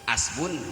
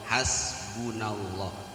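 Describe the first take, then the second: First: The word starts without an h sound. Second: The word starts with an h sound. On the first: Others often say it this way. The speaker calls it wrong. "ngan sok ngadangu di nu tahliah teh hasbun Allah. Hasbun duka asbun" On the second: The speaker says it this way. The speaker calls it right. "Anu saya mah eta hasbunallah"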